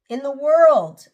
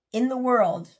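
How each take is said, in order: First: World said louder the second time, pushing in the world harder; louder repeat. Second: Said in the usual way. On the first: Shown as a demonstration. Vlogger to viewers dreaming of debt freedom, louder emphatic repeat. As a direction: lean hard on world in the world.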